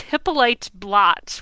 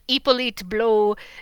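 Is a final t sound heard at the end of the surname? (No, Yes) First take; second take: Yes; No. First: The surname ends with a clear t sound. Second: The surname ends in a vowel, with no t. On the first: "as a kid, I always pronounced it as Hippolyte Blot" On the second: "Probably it's pronounced blow"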